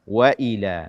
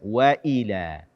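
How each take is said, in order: First: The glottal stop is clearly pronounced. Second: The glottal stop is not clearly pronounced. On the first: The speaker calls it right. "tidak membaca hamzah dengan jelas" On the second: The speaker calls it wrong. "bukan waila"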